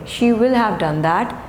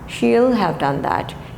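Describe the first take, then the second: First: The word will is said in full. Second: The word will is contracted onto she.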